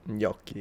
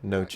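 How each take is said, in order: First: It begins with a palatal ny sound. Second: It begins with a plain n sound. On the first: The speaker calls it right. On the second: The speaker calls it wrong.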